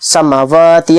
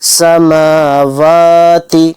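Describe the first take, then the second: First: The vowel after the m is cut short, rushed. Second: The vowel after the m is drawn out long. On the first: The speaker calls it wrong. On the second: The speaker calls it right.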